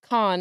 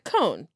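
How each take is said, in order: First: The vowel is an open 'ah' sound. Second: The vowel is a rounded 'oh' sound. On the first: "my brain heard Joe say Khan" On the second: "I read in my head cone. So I was like cone"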